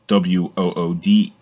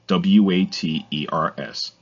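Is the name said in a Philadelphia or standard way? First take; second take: Philadelphia; standard. First: The name is said with a Philadelphia 'wooders' sound. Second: The name is said with a standard 'waters' sound. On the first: The speaker calls it wrong. "Wooders is the pronunciation from some people" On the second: The speaker calls it right. "but it's Waters"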